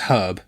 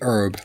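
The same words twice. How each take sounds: First: The word is said with an H sound. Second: The word is said without an H sound.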